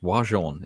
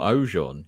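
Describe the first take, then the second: First: The name is said with a French-style pronunciation. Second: The name is said with an English-style pronunciation. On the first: The speaker calls it right. "it's Wajon" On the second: The speaker calls it wrong. "it's not Ojon"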